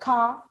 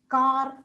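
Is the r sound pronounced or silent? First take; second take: silent; pronounced. First: The r at the end is silent. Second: The r at the end is pronounced. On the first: The speaker calls it right. "not pronounced in English, like car, silent" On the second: The speaker calls it wrong. "they tend to pronounce as car"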